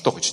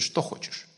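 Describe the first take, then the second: First: It is said in a rude, dismissive tone. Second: It is said in a warm, welcoming tone. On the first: The speaker wants the other person to go away. The speaker calls it wrong. "Это не так, как у нас" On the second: The speaker is eager to do whatever the guest wants. The speaker calls it right. "Говорят"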